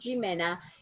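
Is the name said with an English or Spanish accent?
English. The name is said with an English accent. The speaker calls it wrong. "is not Jimena"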